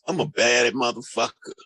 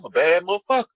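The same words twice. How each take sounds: First: It is said with ashamed, deflated energy. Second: It is said with proud, confident energy. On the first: Bad is taken to mean bad. "Versus, ... It's a different energy attached to it" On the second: Bad is taken to mean good. "we influence them to believe that, oh, yeah"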